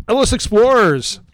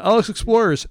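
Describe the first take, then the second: First: Burp while talking; words pushed out on a burp. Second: Said in the usual way. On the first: Real, not acted. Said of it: "I had to burp". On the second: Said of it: "Sorry, Ellis Explorers".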